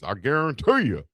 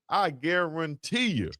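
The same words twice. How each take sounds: First: It is said in an imitated celebrity voice. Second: It is said in his own normal voice.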